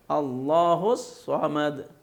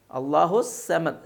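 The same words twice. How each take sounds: First: "الصمد" very slow, with heavy rounded s; correct thick saad. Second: "السمد" slow, with a light plain s; wrong thin seen. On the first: Teacher showing the correct reading, slow thickened saad. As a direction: stretch "الصمد" as "as-sawmad", tongue back. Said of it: "صاد سے ادا کرنا ہے". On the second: Teacher showing the common mistake, seen for saad. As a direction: make "السمد" "as-samad", thin s and thin a. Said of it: "سمد غلط ہے،". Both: Shown as a demonstration.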